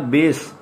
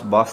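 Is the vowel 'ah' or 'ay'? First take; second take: ay; ah. First: The vowel sounds like 'ay'. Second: The vowel sounds like 'ah'. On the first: The speaker calls it right. "म्यूजिक की बेस होती है ये" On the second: The speaker calls it wrong. "बास नहीं कहना"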